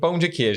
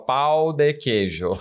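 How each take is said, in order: First: It is said in a native Brazilian accent. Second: It is said in an English speaker's accent. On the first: "então fala pra mim pão de queijo" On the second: "Ela falava pau de queijo"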